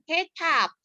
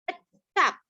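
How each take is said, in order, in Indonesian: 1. Vokal pertamanya bunyi e yang jelas. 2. Vokal pertamanya bunyi e pepet yang lemah. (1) "bukan kecap" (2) "tapi kecap"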